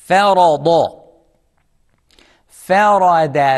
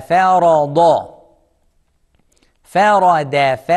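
No difference in how they are said.

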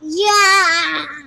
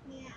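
First: It is said with loud enthusiasm. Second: It is said flatly, without enthusiasm.

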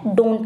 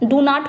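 First: The words are run together, dropping a sound. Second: Both words are said fully and separately. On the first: "डोंट कहते हैं" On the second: "डू नॉट को हम क्या कह देते हैं?"

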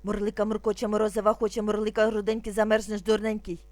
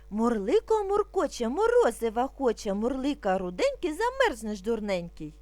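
First: It is recited very quickly. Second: It is recited at a slightly quicker pace. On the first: "А зараз дуже швидко" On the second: "А тепер трошки швидше"

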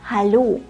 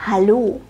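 No difference in how they are said.

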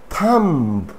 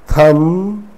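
First: The final b sound is pronounced. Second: The final b sound is silent. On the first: The speaker calls it wrong. "it's not thumb" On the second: The speaker calls it right. "Pretend that B is not there"

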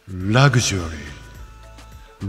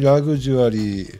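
First: The voice has an echo effect on it. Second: The voice is dry with no echo.

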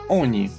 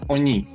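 First: The stress is on the first syllable. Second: The stress is on the last syllable. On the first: The speaker calls it right. "Наголос завжди йде на передостанню голосну. Тому читається «оні»" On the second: The speaker calls it wrong. "а не «оні»"

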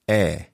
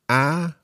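First: The vowel sounds like the e in egg. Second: The vowel does not sound like egg's e. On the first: The speaker calls it right. "The last one, eh" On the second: The speaker calls it wrong. "which of these is correct"

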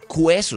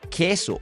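First: The u is sounded after the k. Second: The u is silent after the k. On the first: The speaker calls it wrong. "Nosotros no decimos cueso" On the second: The speaker calls it right. "sino que decimos queso"

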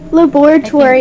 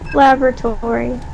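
First: It is pronounced the British way. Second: It is pronounced the American way. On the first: "Laboratory is British" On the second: "How do you say it in American English?"

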